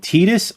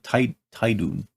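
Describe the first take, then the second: First: The name ends with an s sound. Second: The name ends with an n sound. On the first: The speaker calls it right. "that's how you pronounce his name?" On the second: The speaker calls it wrong. "I've been calling him"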